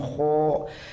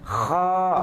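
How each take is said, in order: First: The vowel is said with rounded, pushed-out lips. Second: The vowel is said with relaxed, unrounded lips. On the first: The speaker calls it wrong. "tidak dibaca memonyong. Jadi bukan kho" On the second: The speaker calls it right. "Tapi biasa saja yang men menembalkan itu belakang sini"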